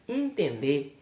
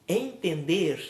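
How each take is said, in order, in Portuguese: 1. O R final é omitido. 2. O R final é claramente pronunciado. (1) "diz entender" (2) "Ao invés de falar entender"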